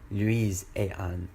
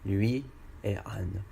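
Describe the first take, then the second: First: A z sound links lui to et. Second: No z sound joins lui and et. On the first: The speaker calls it wrong. "mais pas" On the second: The speaker calls it right. "On dit juste"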